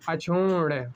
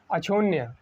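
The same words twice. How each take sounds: First: अक्षुण्य ending in a retroflex ण, no य; careful अक्षुण्य with lengthened second syllable; corrected pronunciation. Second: Said in the usual way. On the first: Shown as a demonstration. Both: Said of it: "इसका क्या हो जाएगा?".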